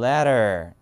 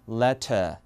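First: American accent, with a flapped t and an r. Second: British accent, with a clear t and no r. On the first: "미국에서는 뭐 letter 이런 거고요" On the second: "영국은 letter 이런 거죠"

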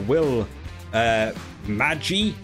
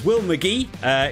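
First: The surname sounds like the word magic. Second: The surname sounds like the name McGee. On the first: The speaker calls it wrong. "like magic" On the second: The speaker calls it right. "It turns out his name is Will McGee"

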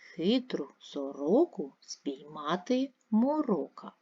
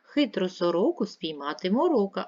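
First: It is read slowly, syllable by syllable. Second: It is read faster and louder than before. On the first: "Прочитайте повільно по складах" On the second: "Швидше прочитаємо. Голосніше"

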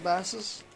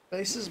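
First: The vowel sounds like the one in 'bass'. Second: The vowel sounds like the one in 'base'. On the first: The speaker calls it right. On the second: The speaker calls it wrong.

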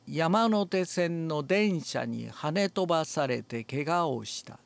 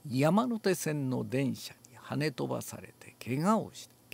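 First: The vowels are shallow throughout. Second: The vowels are deep and rounded. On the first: "全部浅いです。" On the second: "深くすると"

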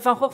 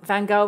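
First: The name is pronounced the Dutch way. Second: The name is pronounced the English way. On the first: "I'll pronounce it in the Dutch way" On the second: "but Van Gogh is fine"

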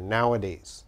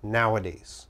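First: It has three syllables, with a middle vowel. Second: It has three syllables, with a middle vowel.

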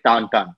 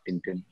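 First: The name has a French pronunciation. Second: The name has an English pronunciation. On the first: "the French call it Tintin" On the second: "not Tintin like the rest of the world"

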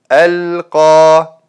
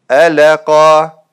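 First: The middle consonant is held steady without echo. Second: The middle consonant gets an added bouncing echo. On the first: The speaker calls it right. "вместо" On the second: The speaker calls it wrong. "они делают калькаля на буквах с сукуном"

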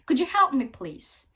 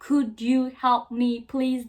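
First: Could and you blend into one sound, 'couldja'. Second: Could and you are said as separate words. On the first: "did ya şeklinde söylenir" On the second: "demek yerine"

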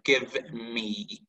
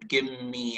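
First: The v sound is clearly pronounced. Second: The v sound merges into the m. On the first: "instead of give me" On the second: "the V here, it's actually merged into M"

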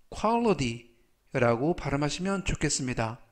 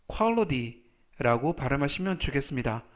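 No difference in how they are said.

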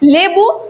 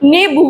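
First: The word begins with an l sound. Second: The word begins with an n sound. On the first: It is the standard form. "যেমন লেবু" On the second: It is the common regional form. "জনসাধারণ নেবু বলে থাকে"

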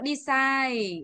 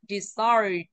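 First: Both syllables carry equal stress. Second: The stress falls on the second syllable. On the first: The speaker calls it wrong. "Không đọc đi sai bằng nhau" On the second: The speaker calls it right. "mà trọng âm mạnh vào từ sai ạ"

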